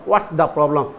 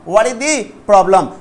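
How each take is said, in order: First: The word 'is' is contracted into 'what's'. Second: The word 'is' is said as a full syllable.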